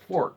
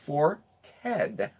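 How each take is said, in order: First: The word is said with one syllable. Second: The word is said with two syllables. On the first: This is how newcomers and outsiders say it. The speaker calls it wrong. "not forked" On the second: This is how local residents say it. The speaker calls it right. "It is two syllables"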